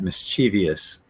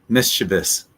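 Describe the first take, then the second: First: An extra 'ee' syllable comes before the ending. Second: No extra syllable comes before the ending. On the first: The speaker calls it wrong. "the wrong way to say it" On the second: The speaker calls it right. "But that I's not there. So it's just mischievous"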